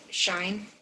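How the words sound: It sounds like shine, British style.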